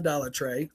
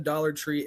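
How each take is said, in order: First: The last word is said like 'tray'. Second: The last word is said like 'tree'.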